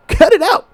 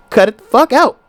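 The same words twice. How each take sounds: First: High, giggling take; laughing high repeat. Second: Said in the usual way. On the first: Real, not acted. Comedian laughing as he repeats his order to couples, pitched up. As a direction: laugh and say it again much higher.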